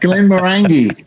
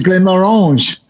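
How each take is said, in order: First: The name is said in a plain, non-French way. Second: The name is said in a French-sounding way.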